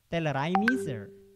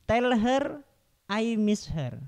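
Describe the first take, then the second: First: The words are run together, linking across words. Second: The words are said separately, without linking.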